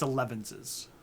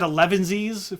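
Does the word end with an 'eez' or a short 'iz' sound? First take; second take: short iz; eez. First: The word ends with a short 'iz' sound. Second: The word ends with a long 'eez' sound. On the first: The speaker calls it right. "but I think it's elevenses" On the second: The speaker calls it wrong. "I think I said elevensies for a long time"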